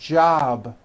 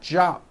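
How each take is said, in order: First: The final consonant is a voiced B. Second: The final consonant is an unvoiced P. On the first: The speaker calls it right. "which is a voiced sound" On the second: The speaker calls it wrong. "with an unvoiced P"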